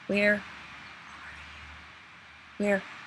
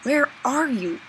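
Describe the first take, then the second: First: It is said softly. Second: It is said fairly loudly.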